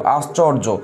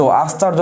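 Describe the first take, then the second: First: আশ্চর্য with a rounded middle vowel, "ash-chor-jo"; correct vowel pronunciation. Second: আশ্চর্য said with an open "a", as "ash-char-jo"; wrong vowel pronunciation. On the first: Teacher giving class the proper form, আশ্চর্য pronounced "ash-chor-jo". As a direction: say আশ্চর্য as "ashchorjo", "aw" in the middle syllable. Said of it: "আশ্চর্য না কিন্তু". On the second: Teacher warning class against a mistake, আশ্চর্য mispronounced as "ash-chaar-jo". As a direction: say আশ্চর্য as "ashcharjo", "aa" in the middle syllable. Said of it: "না কিন্তু". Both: Shown as a demonstration.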